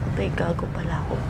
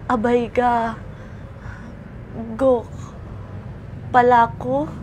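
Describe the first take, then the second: First: It is said quickly with the words run together. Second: It is said slowly with pauses between words.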